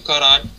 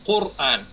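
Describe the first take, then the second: First: The first vowel is an o sound. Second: The first vowel is a u sound. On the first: This is the usual Russian form of the word. The speaker calls it wrong. "не Коран" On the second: This is the form closer to the original Arabic. The speaker calls it right.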